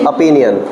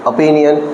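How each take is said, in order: No difference in how they are said.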